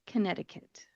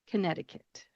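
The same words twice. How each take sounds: The two takes are said the same way.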